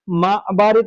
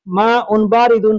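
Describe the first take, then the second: First: The endings are dropped from both words. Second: Both words end with an added -un sound. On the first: This is the everyday local way of speaking. "ये लोकल हो गया" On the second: This is the formal bookish way of speaking. "तो ये हो गया किताबी"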